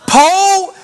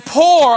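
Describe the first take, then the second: First: "Po" drawn out with no R; dropped R. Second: "poor" with the R sounded; R pronounced. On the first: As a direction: stretch "Po" on an open O. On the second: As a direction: finish "poor" on a clear R. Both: Shown as a demonstration. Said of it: "pronounce the O R in poor".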